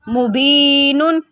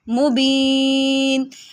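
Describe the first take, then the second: First: The word ends with the full nun syllable. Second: The word ends on a plain n sound. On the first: This is the connected reading. "नून दो पेशनुन" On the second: This is the reading when stopping on the word. "वक़फ़न"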